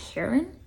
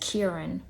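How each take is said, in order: First: The name starts without any K sound. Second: The name starts with a clear K sound. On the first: "I think it's Heron is how you pronounce it, like the K silent" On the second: "she says Kieran"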